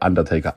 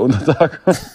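First: The name is pronounced the English way. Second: The name is pronounced the German way. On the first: The speaker calls it right. "dass der Undertaker heißt" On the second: The speaker calls it wrong. "ich habe das immer deutsch ausgesprochen"

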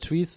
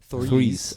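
First: The word begins with a plain t sound. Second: The word begins with a th sound. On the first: The speaker calls it wrong. "das war jetzt sehr irisch ausgesprochen" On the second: The speaker calls it right. "Ein richtiges TH"

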